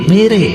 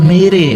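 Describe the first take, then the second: Both takes have the same delivery.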